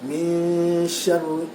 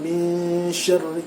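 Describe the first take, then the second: No difference in how they are said.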